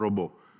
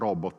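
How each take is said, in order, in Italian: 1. Si dice con pronuncia alla francese. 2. Si dice senza pronuncia alla francese. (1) "pronuncia un po' francofona" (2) "io dico robot"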